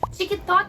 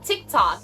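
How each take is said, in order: First: It is said with a Brazilian Portuguese accent. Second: It is said with a plain English accent. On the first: "a Brazilian saying TikTok" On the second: "It's not TikTok"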